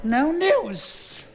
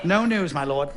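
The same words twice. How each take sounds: First: Sudden high squeaky repeat; high falsetto. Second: Said in the usual way. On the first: Acted. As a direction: let the voice jump up high. General repeats, pitch jumps.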